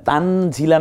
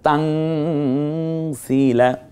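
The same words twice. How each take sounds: First: The vowel after z is short. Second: The vowel after z is stretched long. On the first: The speaker calls it wrong. "তানজিলা না বলে" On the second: The speaker calls it right. "এক লিপ টেনেও বলবো"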